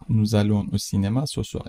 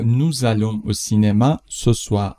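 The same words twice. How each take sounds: First: Said in the usual way. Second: Slow, careful dictation pace; slow model read. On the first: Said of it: "teacher repeats at normal speed". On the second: Shown as a demonstration. Teacher reads the French sentence slowly for the class. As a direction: spell it out slowly for learners. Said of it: "teacher models the sentence slowly".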